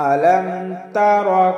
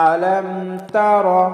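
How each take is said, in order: Both takes have the same delivery.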